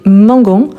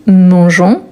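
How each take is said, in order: First: "mangons" with a hard G as in "gare". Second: "mangeons" with a soft G, like French J; "mangeons", drawn out, with the G softened to "zh". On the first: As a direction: say "mangons" as "mahn-gohn". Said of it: "pour ne pas avoir les sons des mangons". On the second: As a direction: say "mangeons" slowly as "mahn-zhohn". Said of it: "on dit mangeons". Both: Shown as a demonstration.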